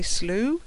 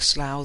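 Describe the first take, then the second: First: It is said the American way. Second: It is said the British way. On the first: "In American English, you might say slough" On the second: "which we pronounce in Britain like slough the place"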